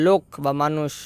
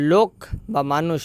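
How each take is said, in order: Both takes have the same delivery.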